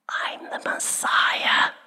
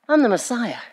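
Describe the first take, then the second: First: The phrase is said in a whisper. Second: The phrase is said in a normal voice. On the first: The announcement is made quietly and intimately. "Did he whisper to her" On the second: The announcement is made casually and openly. "Or did he just go"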